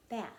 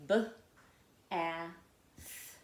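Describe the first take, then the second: First: Said in the usual way. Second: "B, a, th" as three separate sounds; "B, a, th" split sound by sound. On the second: Shown as a demonstration. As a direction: sound out "B", short "a", "th" with pauses between. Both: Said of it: "makes it a short vowel sound".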